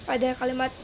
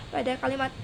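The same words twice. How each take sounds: Both takes have the same delivery.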